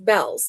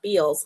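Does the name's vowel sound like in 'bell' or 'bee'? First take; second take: bell; bee. First: The vowel sounds like the one in bell. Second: The vowel sounds like the one in bee. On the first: The speaker calls it right. "it's pronounced Bells" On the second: The speaker calls it wrong. "not Beals"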